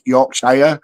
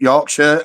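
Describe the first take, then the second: First: The ending is a full 'shire' sound. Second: The ending is a short, reduced 'sher' sound. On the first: This is how Americans say it. "as Americans pronounce it Yorkshire" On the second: This is the local British way of saying it. "we pronounce it Yorkshire"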